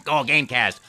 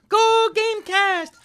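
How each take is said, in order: First: Said in the usual way. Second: High, slow, cheerful Mario shout. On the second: Acted. Mario greeting the show's listeners cheerfully. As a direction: belt it out way up high. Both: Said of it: "that was my line".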